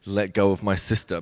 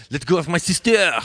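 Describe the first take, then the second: First: Said in the usual way. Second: Put-on "Let go of my sister!" shouted higher and louder in a French accent. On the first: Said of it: "he was supposed to say something like". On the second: Dancer mimicking a French colleague's line in a French accent. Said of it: "but being French, he'd be like".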